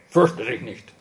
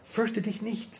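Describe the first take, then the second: First: It is said in a harsh, commanding tone. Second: It is said in a gentle, comforting tone. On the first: It is a stern order not to be afraid. The speaker calls it wrong. "Das ist natürlich nicht zu verstehen. Hey" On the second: It is loving reassurance while being held. The speaker calls it right. "Der sagt es, wenn er uns in den Arm nimmt"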